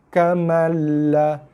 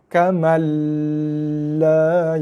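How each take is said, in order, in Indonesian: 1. Suku kata la ditekan lalu dilepas dengan pendek. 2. Suku kata la dipanjangkan. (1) "Dia cuma tekan pada lam dan juga lepas" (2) "tu tak boleh, dah panjang dah"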